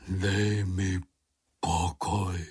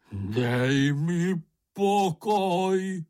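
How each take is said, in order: First: Low, weary moan. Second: High, long-drawn hysterical wail; hysterical cry. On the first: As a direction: moan it low, wanting to be left alone. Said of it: "zaúpěl Bambul". (hluboce, zničeně zaúpět) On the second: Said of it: "vykřikl Bambul hystericky". (hystericky, táhle vykřiknout) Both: A narrator's reading.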